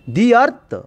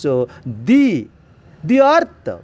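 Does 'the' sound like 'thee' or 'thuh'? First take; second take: thuh; thee. First: The word 'the' is said with a short 'thuh' vowel. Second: The word 'the' is said with a long 'thee' vowel. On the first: The speaker calls it wrong. "we should not pronounce the sound" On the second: The speaker calls it right. "Why should the following word start with vowel sound? Then we should pronounce"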